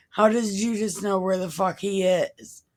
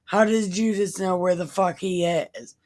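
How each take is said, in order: Both takes have the same delivery.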